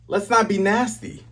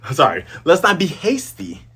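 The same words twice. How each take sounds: First: "nasty" said instead of hasty, with an n; slip of the tongue. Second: "hasty" said right with a clear h; correction. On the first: Viewer misspeaking while calming Kaya, "nasty" slip. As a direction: trip over the word, saying "nasty" with a plain n start. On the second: Viewer correcting the slip, "hasty" with an h. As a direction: fix the slip, saying "hasty" with a clean h start. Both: Real, not acted.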